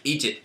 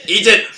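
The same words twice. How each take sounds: First: Said in the usual way. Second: Loud, high command yelled; shouted command. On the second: Acted. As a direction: bark the order suddenly. Offering chocolate, then insisting.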